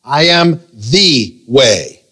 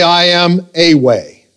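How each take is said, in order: First: "the" said as a long "thee", set apart by pauses; very slow, hammer the word "the"; stress on THE. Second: "a" said as a full "ay"; stress on A. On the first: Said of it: "He did not say, I am a way". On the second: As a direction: lean on "a", drawn out slowly, as the wrong wording. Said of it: "He did not say". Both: Shown as a demonstration.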